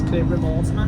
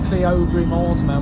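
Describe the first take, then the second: First: Said in the usual way. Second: Cleobury Mortimer as written, CLEE-oh-bury; Cleobury Mortimer read naively from the spelling, CLEE-OH-bury; spelling pronunciation. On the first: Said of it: "when it's Cleobury Mortimer". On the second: Shown as a demonstration. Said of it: "spelled as Cleobury Mortimer".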